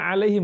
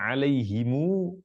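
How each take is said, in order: First: It ends in him, with a closed final m. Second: It ends in himu, with a long final u. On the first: "kita baca alaihim bersukun mimnya" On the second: "mu didomahkan mimnya dan baca panjang"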